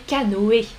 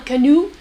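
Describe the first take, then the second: First: "canoë" the French way, ending o-é; French pronunciation. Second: "canoe" the English way, ending in a long oo; English pronunciation. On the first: Teacher correcting to French, "canoë" with O and E both sounded. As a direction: say "canoë" as ka-no-é, three syllables. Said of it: "Non, en français". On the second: Teacher warning against the English way, "canoe" said as ka-noo. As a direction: say "canoe" as ka-NOO, two syllables. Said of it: "On prononce pas comme en anglais". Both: Shown as a demonstration.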